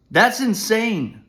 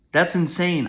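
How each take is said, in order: First: Slow, high and loud, leaning hard on every word; outraged emphasis. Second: Said in the usual way. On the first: Real, not acted. Father ranting about the school, slow high outraged "That's insane". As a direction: stretch "That's insane" out in disbelief.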